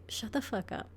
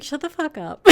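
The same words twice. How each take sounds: First: Hushed whisper, much softer; whispered shut up. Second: Laughing mock brush-off. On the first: Acted. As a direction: whisper it like a secret scolding. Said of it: "the universe is like". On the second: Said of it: "she'd be like".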